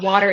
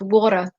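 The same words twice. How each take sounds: First: It is said in a plain, non-New York way. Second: It is said with a Queens New York accent. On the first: This is how the speaker normally says it. The speaker calls it wrong. "how I say water" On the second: This is how the relatives say it. The speaker calls it right. "my family in Queens makes fun of me"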